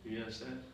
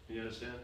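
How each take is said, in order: No difference in how they are said.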